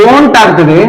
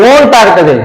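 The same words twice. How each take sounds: No difference in how they are said.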